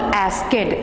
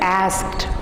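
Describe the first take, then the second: First: The ending is said as a separate extra syllable. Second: The ending joins the word without an extra syllable. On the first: The speaker calls it wrong. "It is not आस्केड" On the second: The speaker calls it right. "It is आस्क्ड"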